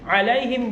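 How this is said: There is a stop after 'alaihim'. The verse ends at this word. "Alaihim berhenti, baru ghairil"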